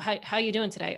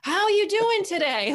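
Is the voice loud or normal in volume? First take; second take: normal; loud. First: It is said at a normal volume. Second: It is said noticeably louder. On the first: The listener is assumed to understand English. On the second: The listener is assumed to need louder speech to understand.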